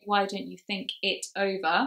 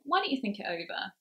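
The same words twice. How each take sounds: First: Each word is said separately and fully. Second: The words run smoothly together into one. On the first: The speaker calls it wrong. "instead of saying ... Which is quite a mouthful if you say it like that" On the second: The speaker calls it right. "We push them together because they nicely slot together"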